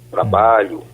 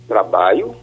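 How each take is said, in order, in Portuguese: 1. O som do meio é a consoante palatal 'lh'. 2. O som do meio é um glide vocálico 'i'.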